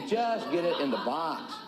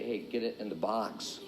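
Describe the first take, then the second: First: Drawn-out JUST, then the rest evenly; emphatic repeat. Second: Low, soft, understated advice; deadpan answer. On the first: Coach repeating simple advice to beginners, emphatic. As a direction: lean on JUST, at normal volume. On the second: Coach answering eager beginners, deadpan. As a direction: say it low and offhand. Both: Acted.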